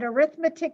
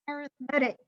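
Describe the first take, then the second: First: It is said with the noun pronunciation. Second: It is said with the adjective pronunciation. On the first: The word names the subject of numbers. "arithmetic is a noun" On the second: The word describes a kind of sequence. "it's now an adjective. And then our screwy language decides to pronounce it differently"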